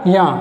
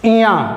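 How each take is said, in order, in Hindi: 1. नाम सीधे व्यंजन से शुरू होता है। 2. नाम की शुरुआत में एक अतिरिक्त 'i' स्वर है। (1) "ई नहीं बोलना है उसमें, या बोलना है" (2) "बचपन में हम लोग क्या बोलते थे"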